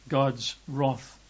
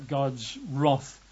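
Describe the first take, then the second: The two takes are said the same way.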